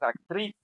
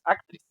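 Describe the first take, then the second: First: The stress is on the last syllable. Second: The stress is on the first syllable. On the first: The speaker calls it right. "es actriz" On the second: The speaker calls it wrong. "no es actriz"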